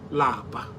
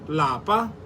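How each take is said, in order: First: The word is said with a lower tone. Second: The word is said with a higher tone. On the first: It means to be tired. "Lower tone" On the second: It means home. "In higher tone"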